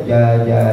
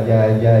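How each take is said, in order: The two takes are said the same way.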